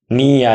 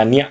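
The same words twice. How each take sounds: First: "নিয়া" drawn out as two beats, ni-ya; syllables apart. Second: "নিয়া" merged into one short beat, nya; blended syllable. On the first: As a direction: stretch "নিয়া" into separate ni and ya. ("নিয়া" ভেঙে টেনে, নি-ইয়া) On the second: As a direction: say "নিয়া" quickly joined as nya. ("নিয়া" জুড়ে ছোট করে, ন্যা) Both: Shown as a demonstration. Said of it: "আসবো যুক্ত বর্ণে".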